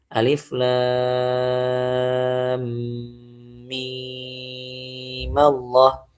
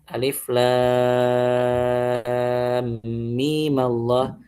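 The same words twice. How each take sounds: First: The 'mim' sound is held for a long time. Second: The 'mim' sound is held only briefly. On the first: "baca dengan enam harokat" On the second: "Dua harokat aja"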